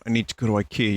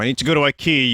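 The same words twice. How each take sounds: First: It is said in a louder voice. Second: It is screamed at full volume.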